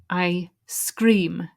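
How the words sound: A small pause separates the two words. "you have to put a little pause in between them"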